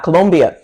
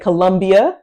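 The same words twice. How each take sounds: First: The second syllable is said as 'lom'. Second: The second syllable is said as 'lum'. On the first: The speaker calls it right. "we say Colom, Lom, Lom" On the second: The speaker calls it wrong. "we do not say Colombia"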